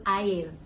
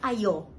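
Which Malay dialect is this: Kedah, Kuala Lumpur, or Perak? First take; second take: Kuala Lumpur; Perak. First: It is said in the Selangor/KL way, 'air'. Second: It is said in the Perak way, 'ayo'.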